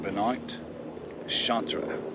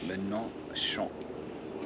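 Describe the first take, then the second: First: The surname ends with an extra final syllable. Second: The surname ends without any extra final syllable. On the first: The speaker calls it wrong. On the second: The speaker calls it right.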